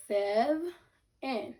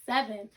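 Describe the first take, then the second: First: "Sev", a clear pause, then "in"; two separate syllables. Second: Said in the usual way. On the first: Shown as a demonstration. Teacher breaking down seven for pupils, syllable by syllable. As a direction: sound out "Sev" and "in" apart. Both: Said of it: "break down seven into two syllables".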